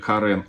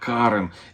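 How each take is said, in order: First: The stress is on the second syllable. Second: The stress is on the first syllable. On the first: It sounds like the Armenian man's name. The speaker calls it wrong. "это не армянское имя Карен" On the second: It is the orchid's commercial name. The speaker calls it right. "ударение на А"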